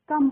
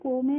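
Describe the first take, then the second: First: The vowel sounds like 'uh', in one syllable. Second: The vowel sounds like 'oh', with a second syllable. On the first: The speaker calls it right. "यहाँ पे जो ओ का pronunciation होता है वो अ होता है" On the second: The speaker calls it wrong. "इसको हम को में नहीं पढ़ते हैं"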